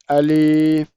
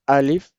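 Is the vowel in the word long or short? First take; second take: long; short. First: The vowel is stretched out long. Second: The vowel is kept short, not stretched. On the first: The speaker calls it wrong. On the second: The speaker calls it right.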